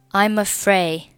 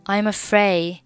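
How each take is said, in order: Both takes have the same delivery.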